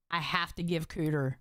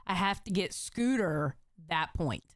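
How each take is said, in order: First: "Cooter" said with a hard k and no s, as a slip; slip of the tongue. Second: "Scooter" said fully with the s-k start, carefully; corrected name. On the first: Streamer misnames Scooter while scoring, slip. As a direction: accidentally say "Cooter" in place of the name. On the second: Streamer fixing her slip on Scooter's name, careful. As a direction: deliberately say "Scooter" right this time. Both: Real, not acted. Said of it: "I didn't mean to say Cooter".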